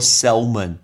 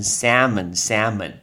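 First: The L sound is pronounced in the word. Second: The L sound is silent in the word. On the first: The speaker calls it wrong. "所以大家都会说salmon，听到salmon 就不对了" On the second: The speaker calls it right. "因为L 不能念，要念成salmon"

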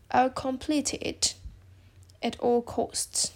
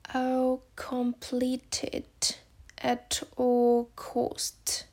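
First: The sentence is said at normal speed. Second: The sentence is said slowly.

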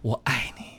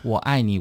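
First: It is said emotionally, pitched very high. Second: It is said flat, without feeling.

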